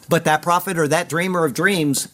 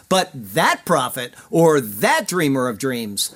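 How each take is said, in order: First: Said in the usual way. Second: Slow, stress on "that prophet" and "that dreamer"; drawn-out stress on "that" before prophet and dreamer; emphatic reading. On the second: Shown as a demonstration. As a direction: lean hard on each "that", slowly. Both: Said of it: "there's an emphasis in these words".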